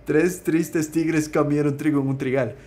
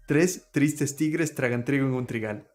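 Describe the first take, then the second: First: Careful "tres tristes tigres comieron trigo", each tr clean; the comieron version, said through deliberately; tongue twister with comieron. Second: Spanish tongue twister "tres tristes tigres tragan trigo", laughing through the start; the tragan version of the twister. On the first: Trabalenguas con "comieron". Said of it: "I'm gonna do it with comieron". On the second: Trabalenguas con "tragan". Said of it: "That's the version that we have here". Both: Shown as a demonstration.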